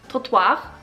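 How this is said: It is said with a French accent. "I'm gonna pronounce it in the French way, or how I think the French would say it"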